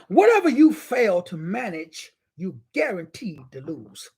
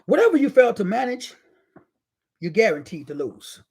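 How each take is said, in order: First: It is said at a slow pace. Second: It is said at a quicker pace.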